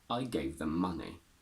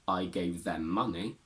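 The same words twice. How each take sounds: First: The word 'them' is reduced and weak. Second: The word 'them' is said in full. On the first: The speaker calls it right. "Them becomes them" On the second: The speaker calls it wrong. "not I gave them money"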